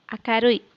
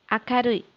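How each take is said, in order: No difference in how they are said.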